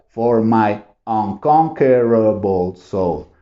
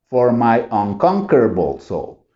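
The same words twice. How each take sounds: First: The phrase is said at a slower pace. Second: The phrase is said faster, with syllables joined.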